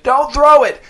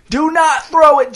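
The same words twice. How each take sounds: First: High, loud panicked yell; strangled shout. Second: High, loud, slower choked yell; strangled desperate shout. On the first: Dez in a headlock begs Jace not to throw, strangled shout. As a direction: scream it while being choked. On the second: Dez pleads harder with Jace, slow strangled shout. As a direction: drag out the plea in panic. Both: A narrator's reading. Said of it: "his voice strangled, shouted".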